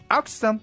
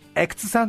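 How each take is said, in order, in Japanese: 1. 最初の母音は「hot」の母音に聞こえます。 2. 最初の母音は「cat」の母音に聞こえます。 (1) "ホットやトップでおなじみの少し口を大きく縦に開けてのあ" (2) "キャットハットのあとえの中間音のえで"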